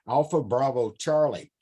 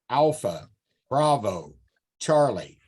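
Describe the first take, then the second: First: The intonation shifts with each word's list position. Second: Each word gets the same emphasized intonation. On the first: The intonation shows where each letter falls in the sequence. "I said that different. There was positional information in what I said" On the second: Each letter is given as if it came first. "that's me accentuating each spoken as a first letter, each letter"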